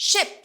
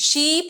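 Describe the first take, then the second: First: SHIP with a short, quick i; clipped short vowel in SHIP. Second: শিপ with a long, stretched ee, like sheep; শিপ said as English "sheep"; long vowel. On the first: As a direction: say ship with a brief lax i. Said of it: "just short". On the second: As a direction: draw out the ee in শিপ. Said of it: "মানে ভেড়া". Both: Shown as a demonstration.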